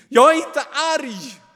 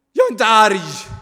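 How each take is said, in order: First: Very high, loud shriek; angry scream. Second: Much higher, louder, nearly a shriek; shrill denial. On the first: Kain screams his denial at the angel. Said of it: "nästan till som ett skrik". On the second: Kain denies his anger to the angel, nearly shrieking. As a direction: deny it almost screaming. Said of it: "hans röst sticker i näsan, nästan till som ett skrik". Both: A narrator's reading.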